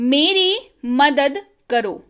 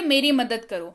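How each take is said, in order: First: The sentence is spoken slowly and carefully. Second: The sentence is spoken at normal speed.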